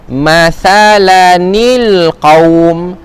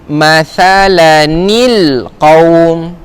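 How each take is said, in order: The two takes are said the same way.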